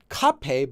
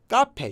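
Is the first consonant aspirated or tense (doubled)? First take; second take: aspirated; tense. First: The first consonant is a strong aspirated sound. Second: The first consonant is a tense doubled sound. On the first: The speaker calls it wrong. "written as uh, kape with a strong kiok" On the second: The speaker calls it right. "pronounced actually as ga, ga"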